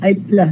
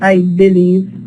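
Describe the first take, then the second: First: The first vowel of believe is dropped. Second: The first vowel of believe is kept. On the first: The speaker calls it right. "the vowel in the first syllable uh, is deleted" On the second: The speaker calls it wrong. "not I believe"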